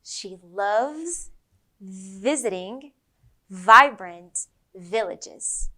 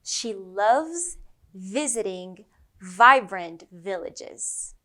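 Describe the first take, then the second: First: "She loves visiting vibrant villages" very slow, word by word, with buzzing V's; slow V sentence. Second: "She loves visiting vibrant villages" slow with buzzing V's; slow V sentence. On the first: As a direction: linger on each V. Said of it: "One more time". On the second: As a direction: stretch each V out slowly. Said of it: "Let's try another one". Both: Shown as a demonstration.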